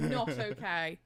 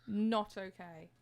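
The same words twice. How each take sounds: First: Firm, louder not okay; emphatic. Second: Not okay said very slowly, each word weighted; slowed repeat to make it crystal clear; slow emphatic repeat. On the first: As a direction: lean hard on Not okay. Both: Real, not acted. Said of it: "I wanna make that incredibly clear".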